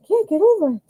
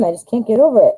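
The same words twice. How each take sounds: First: Much higher, playful squeaky repeat; silly high echo. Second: Said in the usual way. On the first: Pretend. To viewers, echoing her own delight, playfully high. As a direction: echo yourself in a goofy high voice.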